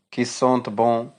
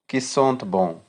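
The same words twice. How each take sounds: The two takes are said the same way.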